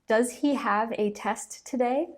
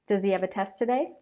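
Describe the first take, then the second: First: The H sounds in he and have are pronounced. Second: The H sounds in he and have are dropped.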